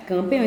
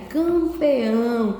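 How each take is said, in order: First: Said in the usual way. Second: CAMPEÃO very slow, every syllable stretched; dictation. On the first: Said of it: "Então, você vai escrever aí". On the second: Shown as a demonstration. Teacher dictates the word for pupils to write, slow stretched delivery. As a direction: draw out campeão with long nasal vowels. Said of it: "você vai escrever aí".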